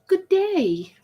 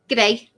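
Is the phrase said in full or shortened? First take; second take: full; shortened. First: Both words are said fully and separately. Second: The words are squeezed into one short word. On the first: "Instead of saying" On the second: "they've learned how to shorten words to save time"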